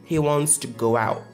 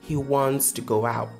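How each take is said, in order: The two takes are said the same way.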